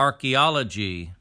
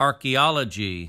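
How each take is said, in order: No difference in how they are said.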